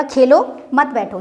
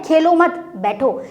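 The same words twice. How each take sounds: First: खेलो alone, short break, then मत बैठो together; slow down and split right after Khelo; pause after Khelo. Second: खेलो मत together, short break, then बैठो alone; slow down and split right after मत; pause after मत. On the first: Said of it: "यानी कि आप खेलो, बैठो मत". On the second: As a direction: join मत to खेलो, leave बैठो apart. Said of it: "खेलने को नहीं बोल रहा है". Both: Shown as a demonstration.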